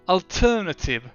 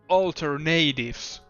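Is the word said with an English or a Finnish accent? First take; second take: Finnish; English. First: Every letter is said as spelled, Finnish-style. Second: The ending rhymes with English natives. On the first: "I can pronounce it how it's written. ... like a basic Finnish person" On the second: "I'm pronouncing it like I'm talking about natives"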